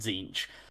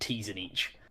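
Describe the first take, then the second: First: The name is said in its standard form. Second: The name is said in a mangled joke form. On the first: The speaker calls it right. "we pronounce the disciples of Zinch as" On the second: The speaker calls it wrong. "for literally no reason other than our own stupid amusement"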